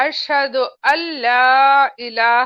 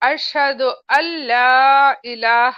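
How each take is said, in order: First: The words are joined, with 'an la' becoming 'alla'. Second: The words are joined, with 'an la' becoming 'alla'.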